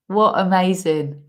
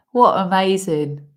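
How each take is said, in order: First: Said in the usual way. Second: Laughing. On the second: Real, not acted. Laughing amazement.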